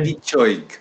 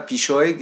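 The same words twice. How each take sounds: First: The consonant is said with a tch sound. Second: The consonant is said without a tch sound. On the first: The speaker calls it right. "c'est pichoig" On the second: The speaker calls it wrong. "C'est pas pichoig"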